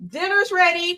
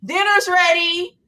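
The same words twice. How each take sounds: First: Yelling across the room. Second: Slow, high call to the house; yelling across the room. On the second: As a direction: draw it out to call everyone in. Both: Pretend. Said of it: "Ringing the bell".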